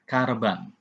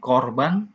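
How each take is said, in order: First: The first vowel is an a sound. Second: The first vowel is an o sound. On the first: The speaker calls it wrong. "bukan karban" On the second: The speaker calls it right. "mesti dibaca sebagai O"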